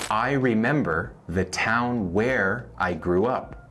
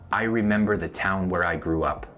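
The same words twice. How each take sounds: First: Slowed, careful model sentence; slow teaching read. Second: Said in the usual way. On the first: Shown as a demonstration. Teacher to Spanish learners, slow model sentence. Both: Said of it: "veamos dos ejemplos más".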